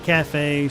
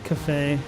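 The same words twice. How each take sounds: First: The A vowel is fully pronounced. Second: The A vowel is dropped.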